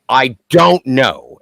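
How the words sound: It is said outwardly, addressed to another person. The speaker is answering the person who asked. "and then to the other"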